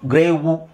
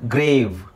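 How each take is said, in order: First: It ends with an added u vowel. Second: It ends in a v sound with no vowel. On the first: The speaker calls it wrong. "ಅಂತ ಹೇಳಂಗಿಲ್ಲ" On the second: The speaker calls it right. "ಇಲ್ಲಿ ವಿ ಇದೆಯಲ್ವಾ"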